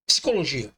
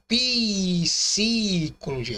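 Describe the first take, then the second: First: The p and s are said together quickly. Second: An extra vowel is heard between p and s. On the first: The speaker calls it right. "Você fala psicologia. Psi. Psi é muito rápido" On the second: The speaker calls it wrong. "Você não fala psicologia"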